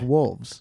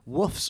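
First: The word has a clear L sound. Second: The word has no L sound, like woofs. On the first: The speaker calls it right. "instead of wolves" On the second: The speaker calls it wrong. "I'm saying woofs all the time"

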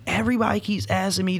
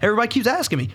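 First: The voice sounds weary and frustrated. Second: The voice sounds light and carefree. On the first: The pressure of the world is building up. "it was just the building of the pressure of the world" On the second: The questions are a minor nuisance. "I'm worried about my vacation, guys"

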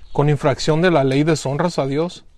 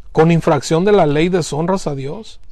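The two takes are said the same way.

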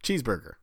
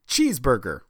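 First: The first syllable gets only ordinary stress. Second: The first syllable gets heavy extra emphasis. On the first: "Yeah, that's normal" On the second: "Are you specifically putting so much accent on cheese?"

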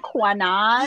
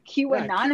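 First: The Q is blended in as a 'kwa' sound. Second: The Q is said as its letter name. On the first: The speaker had only read the word. The speaker calls it wrong. "in my brain, I was pronouncing it like Kanan or Quanon" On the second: This is how people actually say it. The speaker calls it right. "I never actually heard anybody say it"

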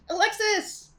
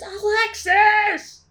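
First: The name is called fairly quietly. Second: The name is screamed loudly.

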